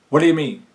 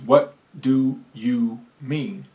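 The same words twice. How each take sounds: First: The words are said fast and run together. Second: Each word is said clearly and separately. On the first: The speaker calls it wrong. "When we get to talking really fast, sometimes we don't say things clearly" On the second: The speaker calls it right. "Each word has its own space"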